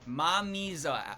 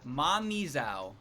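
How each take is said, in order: First: The name ends in a plain 'o' sound. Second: The name ends in an 'ow' sound. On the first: This is the official pronunciation. "but it's Mamizo" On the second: This is a personal pronunciation. "He called it Mamizao"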